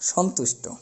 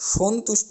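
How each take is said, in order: First: The first vowel is an open aw sound. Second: The first vowel is a closed oh sound. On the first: The speaker calls it right. "এরকম উচ্চারণটা আমাদের করতে হবে" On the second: The speaker calls it wrong. "বলতে পারবো না"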